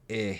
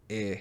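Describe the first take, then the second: First: The vowel sounds like a short eh. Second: The vowel sounds like a short eh.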